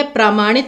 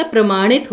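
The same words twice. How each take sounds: First: प्रामाणित opening "praa-"; long first aa. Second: प्रमाणित opening "pra-"; short first a. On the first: Teacher showing the misspelling, प्रामाणित with long "praa". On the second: Teacher correcting students, प्रमाणित with short "pra". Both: Shown as a demonstration. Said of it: "प्रमाणित होता है".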